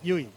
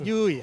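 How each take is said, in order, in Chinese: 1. 这个元音要保持短促。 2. 这个元音要拖长发音。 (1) "係短音啊" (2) "唔係U E"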